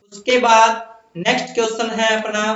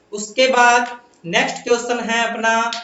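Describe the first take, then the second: No difference in how they are said.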